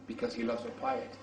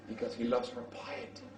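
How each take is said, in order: First: Said in the usual way. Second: Soft whispered echo, stress on "loves"; whispered repeat. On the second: Shown as a demonstration. Preacher repeating the reason to the congregation as a hushed whisper. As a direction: lean in and breathe "loves". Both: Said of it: "repeated softer".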